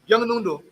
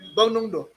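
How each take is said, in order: First: A y glide follows the first b sound. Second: No glide follows the first b sound.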